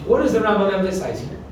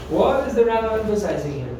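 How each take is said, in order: First: Said in the usual way. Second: "What" stretched out, the question slowing to a fall. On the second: Real, not acted. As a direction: lean long on "What" to prompt an answer. Teacher repeats question to prompt class.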